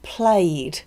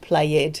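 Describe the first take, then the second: First: The word is said as one syllable. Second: The word is said as two syllables. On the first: The speaker calls it right. "it's got one syllable, not two" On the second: The speaker calls it wrong.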